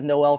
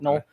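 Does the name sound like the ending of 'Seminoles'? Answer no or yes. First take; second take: no; yes. First: The name does not sound like 'Seminoles' ending. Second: The name sounds like the ending of 'Seminoles'. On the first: The speaker calls it wrong. "I I pronounced it as Noel for the entire season last year" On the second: The speaker calls it right. "it's actually pronounced Noel, like Seminoles"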